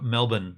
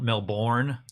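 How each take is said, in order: First: It is said the way Australians say it. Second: It is said the way a tourist says it. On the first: The speaker is a local. The speaker calls it right. "it's also Melbourne" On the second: The speaker is not from Australia. The speaker calls it wrong. "not Melbourne"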